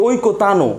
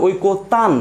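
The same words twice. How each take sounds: First: ওই কো তানো with a full vowel "o" added after the final ন; wrong pronunciation. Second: ওই কো তান with the final ন closed and no vowel after it; correct pronunciation. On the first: Teacher showing students the wrong way to say it, with an added final "o". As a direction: end ওই কো তানো on an extra open "o" sound. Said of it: "না, উচ্চারণ কখনোই ওই কো তানো না". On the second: Teacher showing students the right way, ending closed on the ন. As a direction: stop sharply on the ন of তান. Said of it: "আমরা উচ্চারণ করি ওই কো তান". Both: Shown as a demonstration.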